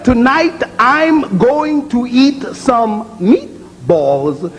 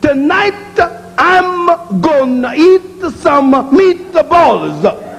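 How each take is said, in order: First: It is said plainly, ending words on consonants. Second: It is said in an Italian accent, adding vowels. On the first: "Instead of" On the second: "is an Italian accent because it don't have a consonant phoneme ending"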